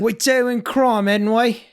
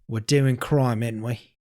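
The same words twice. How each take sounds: First: It is said with more energy and oomph. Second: It is said with plain, low energy.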